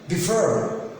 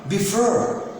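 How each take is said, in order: Both takes have the same delivery.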